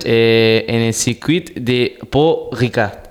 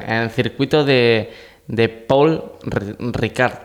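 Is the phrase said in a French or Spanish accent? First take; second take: French; Spanish. First: It is said in a put-on French accent. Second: It is said in a plain Spanish accent.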